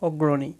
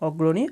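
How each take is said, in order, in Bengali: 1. নামটি বাংলা উচ্চারণে বলা হচ্ছে। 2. নামটি বাংলা উচ্চারণে বলা হচ্ছে।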